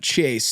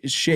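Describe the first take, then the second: First: The word begins with a 'ch' sound. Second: The word begins with an 'sh' sound. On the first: The speaker calls it wrong. "It's not Chase" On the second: The speaker calls it right. "People actually pronounce it Shays Lounge"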